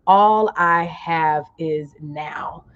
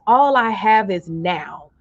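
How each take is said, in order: First: Very slow, lower in pitch; slower, lower affirmation. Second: Slow, deliberate statement of the phrase; slow affirmation. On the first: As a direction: draw it out and let it land. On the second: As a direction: say it slowly so they can type it. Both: Shown as a demonstration. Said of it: "type in the comments".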